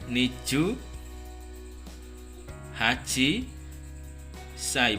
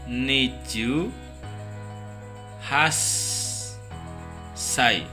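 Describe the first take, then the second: First: The number is said in full before sai. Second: The number is shortened and joined to sai. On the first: The speaker calls it wrong. "Jadi bukan niju haji sai, bukan" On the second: The speaker calls it right. "karena ji-nya hilang, jadi langsung di sini niju has sai"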